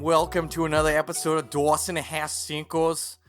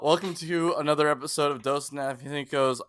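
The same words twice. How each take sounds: First: It is said in a put-on Boston accent. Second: It is said in the speaker's ordinary accent.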